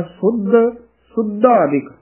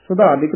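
First: ਸੁਧਾਦਿਕ as "sud-dhaadik"; tight doubled DH. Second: Quick ਸੁਧਾਦਿਕ as "su-dhaadik"; loose single DH. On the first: Teacher shows correct reading, firm DH in ਸੁਧਾਦਿਕ. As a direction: press on the DH in ਸੁੱਧ and ਸੁਧਾਦਿਕ. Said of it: "ਇਸ ਦਾ ਉਚਾਰਨ ਕਰਨਾ ਹੈ". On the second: Teacher shows the mistake, ਸੁਧਾਦਿਕ quick and slack. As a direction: let the DH of ਸੁਧਾਦਿਕ go undoubled. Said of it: "ਨਹੀਂ ਬੋਲਣਾ". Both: Shown as a demonstration.

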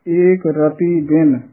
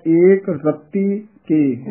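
First: Slow ਰਤੀ as "ra-tee"; soft T. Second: Very slow ਰਤੀ as "rat-tee"; tight T. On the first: Teacher contrasts words, first ਰਤੀ soft and slow. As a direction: keep the T in ਰਤੀ light and single. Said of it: "ਰਤੀ ਪਦ ਪੋਲਾ ਉਚਾਰਨ". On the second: Teacher contrasts words, second ਰਤੀ tightened, slow. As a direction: press and double the T in ਰਤੀ. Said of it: "ਅਗਲਾ ਕੱਸ ਕੇ ਉਚਾਰਨ". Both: Shown as a demonstration.

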